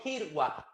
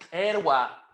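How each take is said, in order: First: The first vowel sounds like a closed i. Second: The first vowel sounds like an open e. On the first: The speaker calls it wrong. "no Kirwa, porque no, no, no se puede" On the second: The speaker calls it right. "pronunciamos Erwa"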